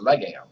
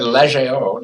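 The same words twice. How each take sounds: First: The word is pronounced the English way. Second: The word is pronounced the French way. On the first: The speaker calls it right. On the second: The speaker calls it wrong.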